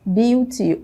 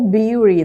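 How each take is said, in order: First: The middle t is a clear t sound. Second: The middle t sounds like a quick tap.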